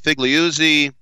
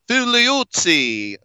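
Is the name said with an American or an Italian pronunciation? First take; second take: American; Italian. First: The name is said with an American pronunciation. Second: The name is said with an Italian pronunciation.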